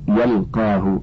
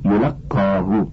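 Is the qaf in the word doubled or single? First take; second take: single; doubled. First: The first vowel is a, qaf single. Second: The first vowel is u, qaf doubled. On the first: The book reaches the person. "بفتح الياء والقاف مخففة" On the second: The book is given to the person. "بضم الياء وتشديد القاف"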